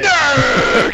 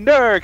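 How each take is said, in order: First: The name is said loudly, with lots of energy. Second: The name is said flatly, with little energy.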